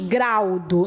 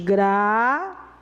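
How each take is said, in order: First: The u glides together with the a. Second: The u forms its own separate syllable. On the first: The speaker calls it wrong. "nós não falamos graudo" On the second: The speaker calls it right. "Esse U separou de uma vogal que vem antes"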